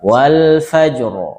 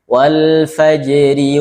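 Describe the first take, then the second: First: The r is heavy and the word stops. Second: The r is light and carries a short i. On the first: The reading stops on this word. "kalau berhenti wal fajr, tebal" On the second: The reading continues into the next word. "kalau sambung wal fajr, ... itu tipis"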